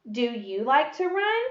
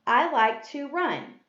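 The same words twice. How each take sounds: First: Rising clearly on "run"; question tune. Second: Slow reading with a falling end on "run"; statement tune. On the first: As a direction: read "Do you like to run?" as a question, lifting "run". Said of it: "This type of sentence is a question". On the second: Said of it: "ends with a period". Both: Shown as a demonstration.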